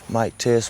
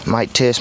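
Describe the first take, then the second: First: The voice is recorded at the lowest level. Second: The voice is recorded at the highest level. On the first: "This is at zero gain reduction" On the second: "Plus twelve gain, should be a little hot"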